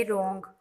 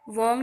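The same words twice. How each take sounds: First: रॉन्ग said with r first, no w sound; teacher demonstrates the right रॉन्ग to the class; silent w. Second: वॉन्ग with the w voiced, the wrong way; teacher shows pupils how not to say वॉन्ग; wrong w sound. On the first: silent डब्ल्यू वाला रॉन्ग. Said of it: "इसको रॉन्ग पढ़ेंगे". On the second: गलत उच्चारण वॉन्ग. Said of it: "वॉन्ग नहीं पढ़ेंगे". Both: Shown as a demonstration.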